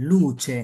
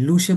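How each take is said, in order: First: "লুচে" with ch in the second syllable; correct pronunciation. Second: "লুসে" with an s sound in the second syllable; wrong pronunciation. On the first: Teacher answering with the proper word, correct pronunciation. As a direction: say "লুচে" as lu-che. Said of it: "কি বলতে হবে?". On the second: Teacher showing learners the error, wrong pronunciation. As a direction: say "লুসে", the mistaken lu-se version. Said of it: "লুসে বললে হবে না". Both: Shown as a demonstration.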